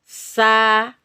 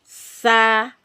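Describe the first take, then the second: No difference in how they are said.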